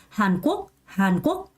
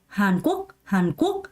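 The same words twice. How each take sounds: The two takes are said the same way.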